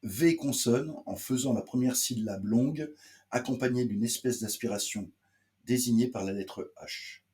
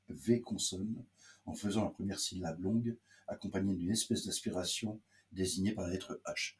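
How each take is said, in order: First: "V consonne" and "longue" read out higher and louder; higher, firmer restatement from "V consonne" to "la lettre H"; emphatic repeat. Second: Said in the usual way. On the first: Shown as a demonstration. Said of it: "je vous répète, pour le prononcer". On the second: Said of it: "je vous répète".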